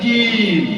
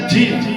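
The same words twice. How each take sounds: First: The consonant is pressed lightly. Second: The consonant is pressed too hard. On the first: The speaker calls it right. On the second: The speaker calls it wrong.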